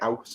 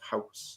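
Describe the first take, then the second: First: The h sound at the start is dropped. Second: The h sound at the start is pronounced. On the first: "I miss out H's" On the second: "instead of"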